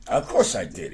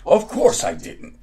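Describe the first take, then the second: First: Said in the usual way. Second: Misread line. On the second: A narrator's reading.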